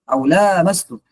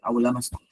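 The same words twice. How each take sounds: First: The vowel after the L is drawn out long. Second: The vowel after the L is kept short. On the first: "dengan memanjangkan lam" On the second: "dengan pendek"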